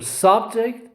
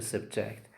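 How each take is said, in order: First: "subject" stressed on SUB; first-syllable stress. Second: "subject" stressed on JECT; light first syllable, strong JECT in "subject"; second-syllable stress. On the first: Teacher gives students the noun example, stressing SUB in "subject". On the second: Teacher gives students the verb example, stressing JECT in "subject". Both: Shown as a demonstration. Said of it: "these are examples".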